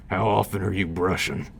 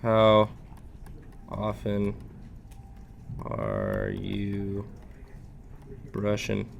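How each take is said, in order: First: Quicker, brighter take on the bear line. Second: Slow, soft gentle bear dentist. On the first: Shown as a demonstration. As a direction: say it back as the bear would. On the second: Acted. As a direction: ask it slowly like a gentle bear. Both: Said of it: "That's the bear voice".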